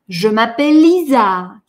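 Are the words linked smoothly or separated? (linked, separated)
linked. The words flow smoothly into one another. The speaker calls it right. "Я перетекаю из одного слова в другое"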